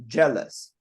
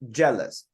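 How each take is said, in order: First: The stress is on the first syllable. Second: The stress is on the first syllable.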